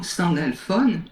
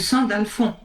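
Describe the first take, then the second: First: The name ends softly, with a gentler final sound. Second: The name ends more abruptly, with a harder sound.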